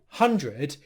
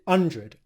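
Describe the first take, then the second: First: The word begins with an audible H sound. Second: The word begins without any H sound. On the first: The speaker calls it right. "instead of saying one hundred" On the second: The speaker calls it wrong. "he's pronounced it hundred"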